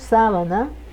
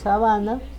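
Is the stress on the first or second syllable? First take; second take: first; second. First: The stress is on the first syllable. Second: The stress is on the second syllable. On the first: It names a bed sheet. The speaker calls it right. "le pongo la tilde en sábana, en la letra A, en la primera A" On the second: It names a grassy plain. The speaker calls it wrong. "me confundí, no le puse la tilde donde debe llevar y dije sabana"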